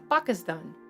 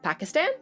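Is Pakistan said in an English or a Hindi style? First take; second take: Hindi; English. First: The word is said with Hindi-style pronunciation. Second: The word is said with English-style pronunciation.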